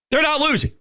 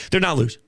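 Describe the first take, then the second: First: They're not losing, higher and stressed; emphatic repeat. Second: Said in the usual way. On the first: Real, not acted. Repeating point, emphatic second take.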